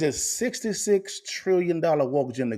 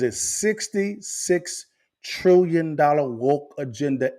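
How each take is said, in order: First: It is said in a plain, calm voice. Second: It is said loudly with forceful emphasis.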